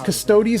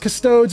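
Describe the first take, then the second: First: The word ends rhyming with hoagies. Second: The word ends rhyming with toads. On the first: "it rhymes with, I don't know, hoagies?" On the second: "it rhymes with toads"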